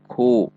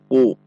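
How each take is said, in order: First: The k sound has a puff of air. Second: The k sound has no puff of air. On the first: The speaker calls it right. "ada dorongan udara saat mengucapkannya" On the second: The speaker calls it wrong. "bukan dibaca u"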